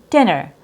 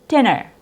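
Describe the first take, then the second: The two takes are said the same way.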